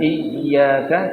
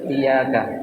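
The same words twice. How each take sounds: First: The y sound is held long and doubled. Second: The y sound is short and single. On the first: Only you. The speaker calls it right. "bukan iyyaka" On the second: Your sunlight. The speaker calls it wrong. "tapi dia baca iyyaka, ... dia hilangkan tasdidnya"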